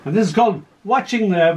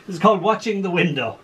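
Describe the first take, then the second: First: Said in the usual way. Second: Laughing. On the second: Real, not acted. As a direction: announce the title through a laugh. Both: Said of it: "we're going to change now".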